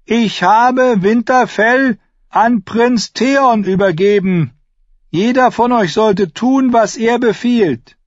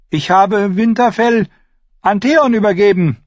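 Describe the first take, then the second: First: Put-on slow, very high, loud boyish proclamation; child lord calling out slowly and high; raised voice. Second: Put-on high child's voice, not yet at full shout; high-pitched young lord making a declaration; strained boyish announcement. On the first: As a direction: proclaim it louder to the whole hall. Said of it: "Er hob die Stimme". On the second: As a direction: announce it reluctantly in a high boy's voice. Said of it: "„Lauter". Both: A narrator's reading.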